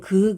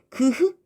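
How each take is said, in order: First: The sounds merge into one aspirated k. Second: The g and h sounds are said separately. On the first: "그럼 그, 그, 그, 그 이렇게 발음이 되거든" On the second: "그흐 연결해서 빨리 발음을 해봐"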